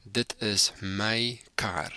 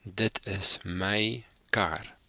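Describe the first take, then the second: First: "Dit is my kar" said slowly, half whispered, "my" like "may"; "Dit is my kar" whispered slowly for learners; slow whispered Afrikaans model. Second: "Dit is my kar" repeated slowly in full voice; "Dit is my kar" spoken aloud, slow and careful; slow voiced Afrikaans repeat. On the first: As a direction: breathe the Afrikaans sentence slowly. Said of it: "I'll say it". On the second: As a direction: say it again clearly and slowly. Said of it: "I'll say the sentence again". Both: Shown as a demonstration.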